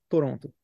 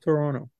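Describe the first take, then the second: First: The second t is a clear t sound. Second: The second t is soft and swallowed. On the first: A person born in the city would never say it this way. The speaker calls it wrong. "nunca vai falar Toronto" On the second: This is how Canadians say it. The speaker calls it right. "um cara do Canadá vai falar Toronto"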